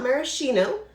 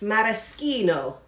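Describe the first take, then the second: First: The 'ch' is said softly, not as k. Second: The 'ch' is said as a hard k sound. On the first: The speaker calls it wrong. "It's not maraschino" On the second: The speaker calls it right. "I'm going to say it correctly. ... C H is K"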